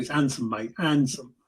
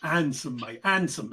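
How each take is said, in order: First: Proper Essex handsome, dropped h, lower; Essex accent. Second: Essex handsome with dropped h; Essex accent. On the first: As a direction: Essex handsome, mate, no h sound. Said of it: "I can do it properly". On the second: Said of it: "That's how you say it". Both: Shown as a demonstration.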